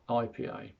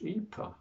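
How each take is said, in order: First: The letters are named the English way. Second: The letters are named the Finnish way. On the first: It is how an English speaker says it. "not I P A" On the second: It is how a local says it. "Different pronunciation, of course, because it's finished"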